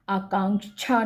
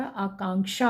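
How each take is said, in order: First: आकांक्षा as aakaanchha, with छ; wrong consonant. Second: आकांक्षा as aakaanksha, clear क्ष; correct consonant. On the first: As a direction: swap क्ष for छ in आकांक्षा. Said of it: "आकांक्षा नहीं होता". (आकांक्षा में 'छा' बोलें) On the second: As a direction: end आकांक्षा in k-sha. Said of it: "आकांक्षा होता है". (आकांक्षा में 'क्षा' बोलें) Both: Shown as a demonstration.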